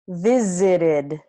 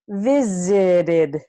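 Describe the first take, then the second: First: The middle T is a quick tap. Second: The middle T is a quick tap.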